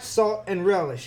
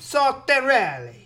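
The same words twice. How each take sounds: First: It is said as three plain English words. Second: It is run together like an Italian surname. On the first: It names ordinary condiments. The speaker calls it wrong. "But it's not salt and relish" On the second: It names a person. The speaker calls it right. "If you say it right, it sounds like it's his last name"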